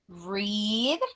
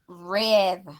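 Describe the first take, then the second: First: The vowel is long, as in 'reed'. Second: The vowel is short, as in 'red'. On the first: It is the present tense. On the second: It is the past tense.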